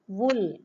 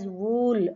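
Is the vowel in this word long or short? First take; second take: short; long. First: The vowel is short. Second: The vowel is long. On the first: The speaker calls it right. "it is actually a shorter sound" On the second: The speaker calls it wrong. "Usually we pronounce it as wool, longer sound"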